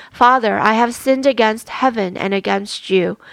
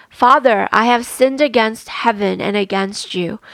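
No difference in how they are said.

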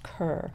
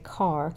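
First: The name rhymes with cur, as said elsewhere. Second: The name rhymes with car, North Carolina style.

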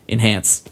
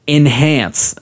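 First: The word is said in a plain, casual way. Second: The word is said in a deliberate, exaggerated way.

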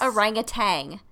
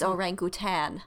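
First: The word ends with a g sound. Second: The word ends without a g sound. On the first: The speaker calls it wrong. "It is not orangutan. That's not what it is" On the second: The speaker calls it right. "It's orangutan. There's no G at the end"

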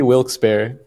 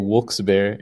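First: The first word is said like 'Wilks'. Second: The first word is said like 'Wooks'. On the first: "I say Wilkes Barre" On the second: "it's W-O-O-K-E-S"

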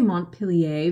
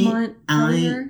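First: The name is said with a French accent. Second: The name is said with an American accent.

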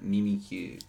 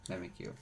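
First: It is said in Japanese style with pure vowels. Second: It is said in English style with English vowels.

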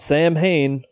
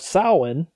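First: The word is pronounced the way it looks. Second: The word is pronounced the traditional way. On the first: The speaker calls it wrong. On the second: The speaker calls it right.

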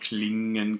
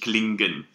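First: The NG is a pure nasal with no G. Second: The NG is followed by a separate G sound. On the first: The speaker calls it right. "Klingen kann" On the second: The speaker calls it wrong. "und nicht klingen"

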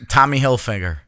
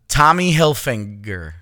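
First: Hilfiger is said without an n before the g. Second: Hilfiger is said with an n before the g. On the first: "I don't like the way that sounds" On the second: "There's no N"

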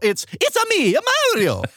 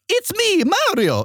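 First: An extra 'a' vowel follows the words. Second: Plain words with no added vowel after them. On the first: The speaker calls it right. "most words need a hyphen A after them" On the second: The speaker calls it wrong. "It's not just"

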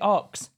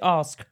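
First: The word is said as 'aks', sounds swapped. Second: The word is said as 'ask', s before k. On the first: This is how the other person says it. The speaker calls it wrong. "it annoys me the way you say ox" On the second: This is the form the other person should use. The speaker calls it right. "Why don't you say ask?"

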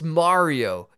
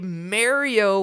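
First: Mario is said with a standard pronunciation. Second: Mario is said with a New York pronunciation. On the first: "when you know it's Mario" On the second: "Why do you choose to say Mario"

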